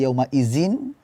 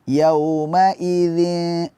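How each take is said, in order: First: The middle consonant is a buzzing z sound. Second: The middle consonant is a soft dh sound. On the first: The speaker calls it wrong. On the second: The speaker calls it right.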